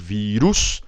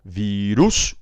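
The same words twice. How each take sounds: No difference in how they are said.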